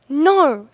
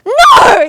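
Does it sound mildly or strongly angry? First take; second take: mildly; strongly. First: It sounds only mildly angry. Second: It sounds strongly angry.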